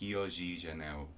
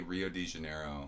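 First: It is said the Portuguese way, R like H. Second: It is said with English sounds.

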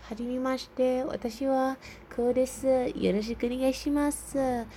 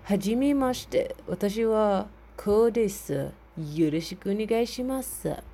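First: It is said in a normal voice. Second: It is said in a deep voice.

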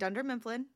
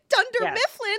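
First: It is said in a flat, plain way. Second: It is said in a bright, perky way. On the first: "She's just going" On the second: "let me be all perky"

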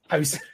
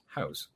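First: The word is said with angry emphasis. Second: The word is said in a calm, normal way. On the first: The speaker is annoyed. "When I'm angry, I'm like, oh, house" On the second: The speaker is not annoyed. "When I'm not aggravated, it comes out as house. Like a normal person says that"

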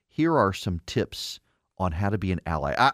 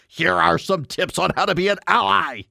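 First: It is said in the speaker's ordinary voice. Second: It is said in an exaggerated put-on voice.

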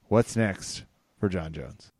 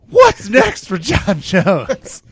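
First: It is said in a plain, flat way. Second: It is said with dramatic, lively character.

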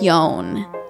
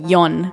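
First: The name is pronounced in an English way. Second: The name is pronounced in a Romanian way. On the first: "it's like Ion" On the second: "in Romanian it would be Ion"

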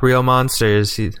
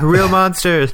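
First: The title is said flatly, without energy. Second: The title is said loudly, with excited energy. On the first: The speaker calls it wrong. "it sounds weird if you just go" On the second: The speaker calls it right. "you have to be like"

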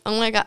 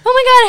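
First: It is said in a condescending tone. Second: It is said in a friendly, warm tone.

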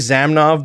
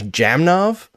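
First: The name begins with a 'z' sound. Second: The name begins with a 'j' sound. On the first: The speaker calls it wrong. "we've been calling Alexei Zamnov by the wrong name" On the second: The speaker calls it right. "he's actually Alexei Jamnov"

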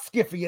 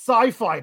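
First: It starts with a hard sk and short i. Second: It starts with an s and long i. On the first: The speaker calls it wrong. "people would say that looks like Skiffy. And it's not Skiffy" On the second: The speaker calls it right. "It's Sci-Fi"

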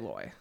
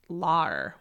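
First: The syllable rhymes with boy. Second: The syllable has a Southern vowel, not rhyming with boy. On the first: This is the speaker's own pronunciation. "I say loy. So boy" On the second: This is how people in the South say it. "Lar would be the South"

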